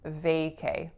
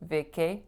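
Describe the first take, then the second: First: The stress is on the first syllable. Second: The stress is on the second syllable. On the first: The speaker calls it right. "I also have to stress that first syllable" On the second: The speaker calls it wrong. "my stress is incorrect"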